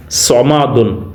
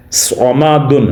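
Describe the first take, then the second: First: صمادن said very slowly with a full ص; sad sound. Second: صمادن said once more with a full ص, not س; sad sound. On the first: Teacher slowly shows pupils the ص. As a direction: stretch out صمادن and voice its ص. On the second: Teacher repeats صمادن after spelling it out. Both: Shown as a demonstration. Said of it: "صاد کی آواز نکالنی ہے".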